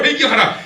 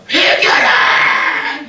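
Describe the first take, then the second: First: Higher, louder clipped call; short shout. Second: Much higher, louder, very slow cry; drawn-out shout. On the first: Imagined Ezra ends his tirade with a short loud command. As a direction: command repentance once more. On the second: Imagined Ezra shouting at the people to repent, long and loud. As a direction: bellow the call to repent. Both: Pretend. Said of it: "이렇게 하지 않고".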